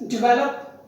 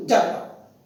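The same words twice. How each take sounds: First: Develop said "di-VEL-up"; stress on second syllable. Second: Develop said "DEV-lup", stressed at the front; wrong stress on develop. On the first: Teacher modelling the word develop, stress on the second syllable. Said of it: "stress is on the second syllable". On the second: Teacher showing what not to say, develop stressed on first syllable. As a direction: put the weight of develop on DEV. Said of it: "not develop". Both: Shown as a demonstration.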